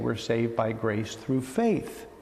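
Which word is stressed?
faith. The word faith carries the main stress. "We just put the emphasis in a different place"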